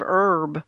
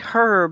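First: The word begins without an h sound. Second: The word begins with a pronounced h sound.

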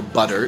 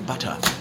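First: The word is said with an American accent. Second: The word is said with a British accent. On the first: It is the word used with the American-speaking parent. "ask their mother for butter" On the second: It is the word used with the British-speaking parent. "their father for butter"

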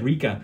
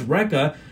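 First: The name is said in a New Zealand accent. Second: The name is said in the speaker's American accent. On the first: "So this is how she says Wrecker. It sounds like Rika" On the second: "when she says Wrecker"

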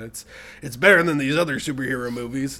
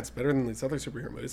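First: It is said in a put-on character voice. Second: It is said in a natural, ordinary voice. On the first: The speaker calls it wrong. "I don't even know why I did that voice" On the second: The speaker calls it right. "I think it was just more like"

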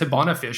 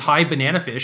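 First: The name is said with four syllables. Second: The name is said with five syllables. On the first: The speaker calls it wrong. "I just like skipped out of a syllable. I've read it as Hibanafish" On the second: The speaker calls it right. "you could have just told me her screen name was High Bananafish"

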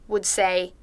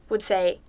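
Both takes have the same delivery.

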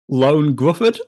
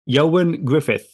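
First: The first name sounds like 'Lone'. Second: The first name sounds like 'Yo-an'. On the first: The speaker calls it wrong. "I think I'd been saying Lone Gruffudd" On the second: The speaker calls it right. "It is Ioan Gruffudd"

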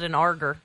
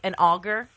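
First: The first syllable has an added R sound. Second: The first syllable has no R sound. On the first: The speaker calls it wrong. "He calls it an arger" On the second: The speaker calls it right. "Like an auger that you would use to"

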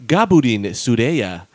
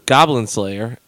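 First: It is said with a Japanese pronunciation. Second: It is said with an English pronunciation.

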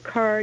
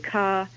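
First: The R sound at the end is pronounced. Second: The R sound at the end is dropped. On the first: "instead of car" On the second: "you would say ka"

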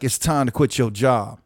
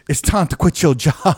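First: It is said in a relaxed, less sharp way. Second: It is said in a sharp, punchy way.

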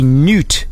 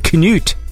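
First: The initial K is silent. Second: The initial K is pronounced. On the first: "silence the K and say Knut" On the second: "they pronounced the K and said Knut"

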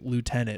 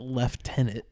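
First: It is said with an American pronunciation. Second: It is said with a British pronunciation.

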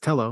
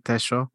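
First: The name is said with a British-style pronunciation. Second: The name is said in an Argentine-Uruguayan way. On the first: "British, he's Tello" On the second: "unless you're talking to an Argentinian or Uruguayan, they'll say Tejo"

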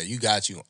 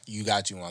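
First: It is said in a surprised, backhanded tone. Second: It is said in a warm, sincere tone. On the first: A compliment that slights him. "If you just look solely at my girl" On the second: A genuine compliment on the couple. "it depends on the tone"

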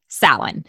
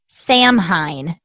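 First: It is said like 'sow-en', starting with 'Sow'. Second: It is said as spelled, starting with 'Sam'. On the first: The speaker calls it right. "it's pronounced like S-O-W-E-N" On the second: The speaker calls it wrong. "Looks like Samhain is what it looks like"

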